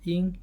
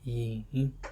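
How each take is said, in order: First: The pitch stays high and level. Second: The pitch dips low and then rises. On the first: "first first tone" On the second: "third would be yin"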